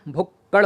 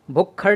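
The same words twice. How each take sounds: First: भुक्कड़ with unaspirated "kk"; correct pronunciation. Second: भुक्खड़ with aspirated "kkh"; wrong pronunciation. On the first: Teacher correcting the word, भुक्कड़ with plain doubled "kk". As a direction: say भुक्कड़ with no puff on "kk". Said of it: "भुक्कड़ होता है". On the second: Teacher showing the error, भुक्खड़ with aspirated "kkh". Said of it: "भुक्खड़ नहीं होता". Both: Shown as a demonstration.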